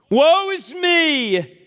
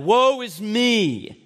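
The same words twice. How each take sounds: First: It is said emphatically, as an exclamation. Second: It is said flatly, without much force.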